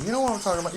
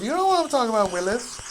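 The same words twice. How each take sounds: First: Said in the usual way. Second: Catchphrase called out high and loud, "what" on top; playful loud call. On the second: Pretend. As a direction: shout it to Willis like a running joke. Repeats catchphrase, second one bigger.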